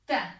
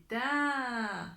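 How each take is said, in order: First: Ta with a brief, cut-off a; short vowel. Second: Ta with a long, held a; prolonged vowel. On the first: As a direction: say Ta short, without holding the vowel. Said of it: "avec les voyelles courtes". (Ta avec voyelle courte) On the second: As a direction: stretch the a of ta right out. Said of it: "on va la prolonger". (ta avec voyelle prolongée) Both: Shown as a demonstration.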